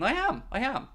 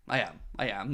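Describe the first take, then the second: First: Excited. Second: Quiet. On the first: Eager admission after "who am I kidding. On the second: Reluctant admission before "who am I kidding. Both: Real, not acted.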